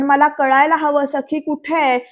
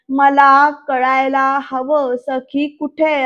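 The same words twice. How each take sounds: First: Said in the usual way. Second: Slow, louder mock-angry demand. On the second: Sarkar demands to know where Sakhi is, angry. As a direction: stretch each word out in acted anger. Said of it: "असं रागात बोलतात".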